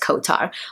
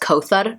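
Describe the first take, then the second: First: The name is said with English sounds. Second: The name is said with Arabic sounds. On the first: "the most English, easier version" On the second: "In Arabic, my name is pronounced Kothar"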